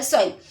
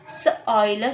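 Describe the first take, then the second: First: Said in the usual way. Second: S-oil, split into s and oil; segmented. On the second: Shown as a demonstration. Teacher splitting the word again for students. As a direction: break it into s and oil. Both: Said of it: "missed O I".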